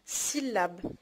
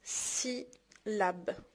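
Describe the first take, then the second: First: Said in the usual way. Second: "سيلاب" in two slow, separated beats; syllable by syllable. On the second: Shown as a demonstration. Teacher showing what a syllable is, syllable by syllable. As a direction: softly split "سيلاب" with a long gap between syllables. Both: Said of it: "تقطع الكلمات كيتسمى سيلاب".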